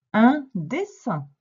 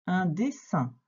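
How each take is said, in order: First: Slow, louder and higher word presentation; emphatic dictation. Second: Said in the usual way. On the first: Shown as a demonstration. Teacher giving a pupil the next word, emphatic dictation. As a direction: announce it slowly and firmly for a learner.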